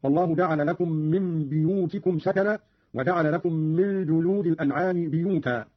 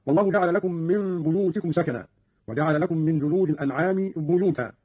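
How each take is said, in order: First: بيوتكم and بيوتا opening on "bi"; kasra on ba. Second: Said in the usual way. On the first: Shown as a demonstration. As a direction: say "biyutikum" for بيوتكم and "biyuta" for بيوتا. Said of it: "بكسر الباء أيضًا". (كسر الباء في بيوتكم وبيوتا) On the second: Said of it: "قرأ قالون بكسر الباء".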